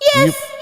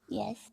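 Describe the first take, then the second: First: It is said loudly. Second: It is said very quietly.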